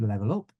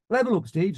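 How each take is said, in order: First: Low echo with a rising end; student's repeat. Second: High, called-out flying order; instructor's command. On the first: Student pilot answering the flying instructor, obedient repeat. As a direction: repeat the order back, slightly unsure. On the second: Flying instructor to student in the air, instructor's command. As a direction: call the order to the student pilot. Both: Retold or imitated.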